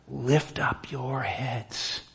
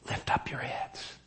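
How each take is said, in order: First: Very slow, drawn-out solemn call; slow solemn command. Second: Soft whispered repeat of the command; whispered echo. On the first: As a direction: stretch each word like a solemn summons. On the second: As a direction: breathe it out as an intimate whisper. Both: Shown as a demonstration. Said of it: "And notice it's given twice".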